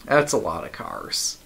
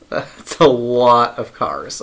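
First: Said in the usual way. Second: "lot" stretched out slow and louder; drawn-out emphasis. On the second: Real, not acted. Streamer marvelling at the endless train, drawn-out emphasis. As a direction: repeat it slowly, leaning hard on "lot". Repeats the remark with more emphasis.

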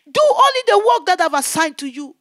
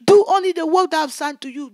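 First: Loud, higher divine command, measured; the Lord giving her the assignment, loud. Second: Loud, fast repeat of the command; the Lord repeating the charge, loud and fast; voice of the Lord, hurried. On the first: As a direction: lay down the charge firmly. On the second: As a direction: press it home quickly. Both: Retold or imitated. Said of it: "He said, "My daughter".

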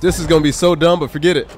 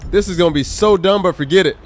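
The two takes are said the same way.

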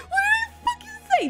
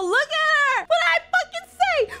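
First: Even higher, faster, laughing as he yells; laughing shout. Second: High, loud told-you-so shout; excited shout. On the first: Streamer repeating his told-you-so, laughing and shouting. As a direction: repeat it, cracking up mid-gloat. Gloating, prediction came true. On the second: Streamer gloating that his call about Selena came true, loud. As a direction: crow that you called it. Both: Real, not acted.

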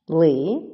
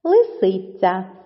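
First: "Лисиця" as Ли... си... ця; split into syllables. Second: Said in the usual way. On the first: Shown as a demonstration. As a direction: say "Лисиця" in three separate syllables. («Лисиця» по складах, з паузами) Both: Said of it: "має три склади".

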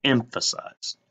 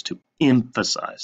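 First: Emphasize said alone, pressed and drawn out with a falling tune; teacher repeats Emphasize on its own, making it stick out; stress on emphasize. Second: Emphasize leaned on, falling away at the end; teacher leans on emphasize to demonstrate the idea; stress on emphasize. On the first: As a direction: give Emphasize its own beat and make it stick out. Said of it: "It sticks out when I say emphasize words". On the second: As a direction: lean hard into emphasize and let it drop. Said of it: "See what I'm doing with my voice here?". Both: Shown as a demonstration.

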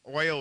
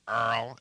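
First: Said in the usual way. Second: Oil said as "Earl", with an r-coloured vowel; old New York "Earl" for oil; mother's New York pronunciation. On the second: Shown as a demonstration. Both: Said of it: "oil would become Earl".

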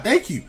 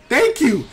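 First: A first, slightly raised thank you. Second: Louder, higher repeat of thank you; a bigger second take of the relieved thanks. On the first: Commentator thanks the game with a slightly raised voice. Relief as Isabelle goes down. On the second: Commentator repeats his thanks to the game, louder and higher. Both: Real, not acted.

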